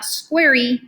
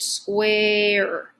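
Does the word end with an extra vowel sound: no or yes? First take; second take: yes; no. First: The final E is sounded as an extra vowel. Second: The word ends without any extra vowel sound. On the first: The speaker calls it wrong. "It's not squarey" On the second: The speaker calls it right. "it's just square"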